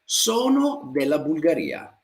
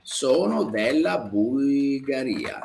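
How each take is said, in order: First: Said in the usual way. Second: Sono della Bulgaria said slowly, stress on sono; slow model sentence. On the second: Shown as a demonstration. Teacher repeating a student's answer slowly for the class. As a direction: lay it out slowly for learners. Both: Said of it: "come lei dice".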